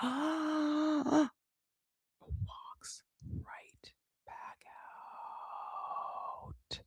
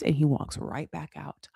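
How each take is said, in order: First: Gasp, then a very slow whisper; shocked whisper. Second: Said in the usual way. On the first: Shown as a demonstration. Host repeating his walk-out to listeners, horrified slow whisper. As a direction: whisper it drawn out for dramatic shock.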